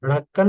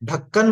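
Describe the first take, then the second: First: The first consonant is a soft tongue flap. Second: The first consonant is a hard tongue stop. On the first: The speaker calls it wrong. "ढक्कन नहीं बोला जाए" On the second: The speaker calls it right. "ढक्कन बोला जाए"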